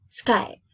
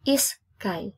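First: SKY in one beat starting straight on the s; one syllable only. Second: SKY broken into is-kai with a gap; wrong extra syllable. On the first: Teacher correcting the wrong form, one syllable only. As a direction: say "Sky" unbroken, no vowel before it. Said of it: "it's just one syllable". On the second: Teacher showing what not to say, extra syllable added. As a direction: say "is sky" as two beats, is, kai. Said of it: "You don't say". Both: Shown as a demonstration.

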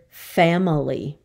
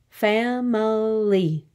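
First: Said in the usual way. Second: "Family" drawn out very slowly, fa-mi-ly; syllable by syllable. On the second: Shown as a demonstration. Teacher showing three syllables, "Family" slowly in parts. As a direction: stretch each of the three beats of "Family". Syllable lesson, word broken up.

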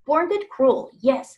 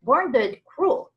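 First: "Born dead cruel" loud, falling on "dead"; agreeing repeat. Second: "Born dead cruel" slow and loud, rising on "Born"; slow correction. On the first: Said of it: "said Daisy". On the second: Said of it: "corrected the Ikaboggle". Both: A narrator's reading.

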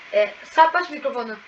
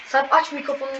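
First: Louder call of the name; raised call to a friend beside you; calling out to Sarp. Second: Said in the usual way. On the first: Shown as a demonstration. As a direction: call across to a friend in the room. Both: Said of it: "İsterseniz sesini de şey yapabilirim".

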